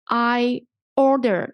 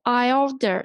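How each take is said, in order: First: "I" and "order" slowly, one by one; slow "I", then a separate "order"; words apart. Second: "I" running straight into "order"; linked words. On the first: Teacher showing learners the two words, "I" and "order" apart. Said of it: "Here we have a link". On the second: Teacher showing learners linking, "I order" joined as one. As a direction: join "I" and "order" with no break. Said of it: "you need to link these two words together". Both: Shown as a demonstration.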